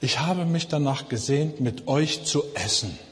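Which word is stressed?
essen. The stress falls on the word essen. The meal itself was what was longed for. "dass man das unterschiedlich betonen kann?"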